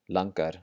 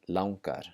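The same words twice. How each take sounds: First: The first vowel is a plain 'ah' sound. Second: The first vowel is an 'ow' sound. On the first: The speaker calls it wrong. "your first intuition is maybe to say langar" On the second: The speaker calls it right. "the A N G combination makes an ow sound"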